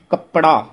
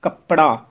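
First: ਕੱਪੜਾ with the extra vowel, kəpəɖa; the mistaken ਕੱਪੜਾ as kə-pə-ɖa; ਕੱਪੜਾ split in three; wrong pronunciation. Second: ਕੱਪੜਾ tight as kəpɖa; ਕੱਪੜਾ short and joined; correct pronunciation. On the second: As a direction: say ਕੱਪੜਾ in two beats, kəp-ɖa. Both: Shown as a demonstration. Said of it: "ਕੱਪੜਾ ਨਹੀਂ ਕਹਿਣਾ".

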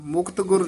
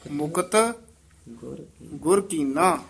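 First: ਮੁਕਤ ਗੁਰ run together fast as the wrong way; quick careless ਮੁਕਤ ਗੁਰ; wrong reading. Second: ਮੁਕਤ set apart, then ਗੁਰ ਕੀਨਾ with a clear break; correct reading. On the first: Teacher showing students how not to read ਮੁਕਤ ਗੁਰ, rushed. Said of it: "ਨਹੀਂ ਕਹਿਣਾ". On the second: Teacher showing students the right reading of ਮੁਕਤ ਗੁਰ, with a pause. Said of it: "ਮੁਕਤ ਗੁਰ ਨਹੀਂ ਕਹਿਣਾ". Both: Shown as a demonstration.

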